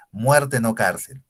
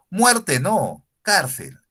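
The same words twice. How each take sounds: First: "Muerte, no cárcel" leído lento, con la pausa justo después de "Muerte"; pausa mal puesta. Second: "Muerte no" fuerte y agudo, pausa, luego "cárcel"; pausa tras el no. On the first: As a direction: leerlo despacio y sin pausa tras el "no". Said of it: "Y la oración decía sin comas". (lectura lenta de la frase sin comas) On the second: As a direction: cortar después del "no" y soltar "cárcel". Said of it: "se lee de esta manera con la coma después de la palabra no". (pausa marcada después del "no") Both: Shown as a demonstration.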